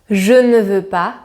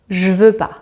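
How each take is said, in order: First: Every word is pronounced fully, including ne. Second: Ne is dropped and the vowel of je disappears. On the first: This is the form required in writing. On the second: This is the quicker everyday spoken form.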